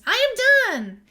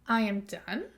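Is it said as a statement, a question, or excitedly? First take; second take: excited; question. First: It is said with excitement. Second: It is said as a question.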